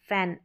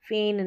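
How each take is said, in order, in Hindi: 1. इस स्वर की ध्वनि एक खुली 'a' ध्वनि है। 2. इस स्वर की ध्वनि एक मध्य 'e' ध्वनि है। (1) "फैन, ए" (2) "फेन नहीं"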